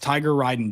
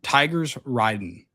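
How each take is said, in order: First: No S sound follows the first word. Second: An S sound follows the first word. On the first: This is how the name is spelled. "There's no S in his name" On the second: This is how the player himself says it. "He pronounces it Tigers Riding with an S"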